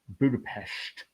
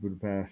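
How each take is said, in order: First: It is pronounced the native Hungarian way. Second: It is pronounced the plain English way.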